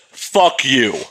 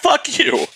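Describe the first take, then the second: First: It is said in a harsh, hostile tone. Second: It is said in a light, joking tone. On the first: The speaker really means the insult. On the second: The speaker is only teasing.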